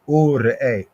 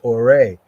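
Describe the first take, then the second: First: It is said slowly, split into parts. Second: It is said at normal speed, run together.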